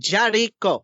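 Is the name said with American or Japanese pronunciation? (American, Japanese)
Japanese. The name is said with Japanese pronunciation. This is how it is said in the original language. "in Japanese, it would be pronounced"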